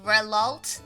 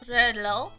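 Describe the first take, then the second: First: The name ends with a sounded final consonant. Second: The name ends in a plain O sound. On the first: The speaker calls it wrong. "People end up pronouncing the T and the H" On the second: The speaker calls it right. "it's an O!"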